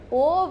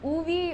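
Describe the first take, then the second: First: The name sounds like 'Ove', ending in 'v'. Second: The name sounds like 'Uvi', ending in 'ee'. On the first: "not Ove" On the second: "or Uvi"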